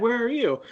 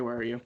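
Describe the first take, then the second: First: Higher and louder quoted question; acted louder call. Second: Said in the usual way. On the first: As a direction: call it out higher and louder, Where are you?. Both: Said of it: "well, I didn't say".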